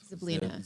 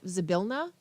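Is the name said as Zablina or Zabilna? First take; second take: Zablina; Zabilna. First: The name is said as Zab-lee-na. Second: The name is said as Za-bil-na. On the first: The speaker calls it wrong. "I misread it the first time I read it, so it's going to be Zablina" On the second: The speaker calls it right. "Which is properly pronounced Zabilna"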